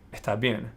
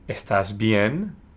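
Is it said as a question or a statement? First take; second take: statement; question. First: It is said as a statement. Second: It is said as a question.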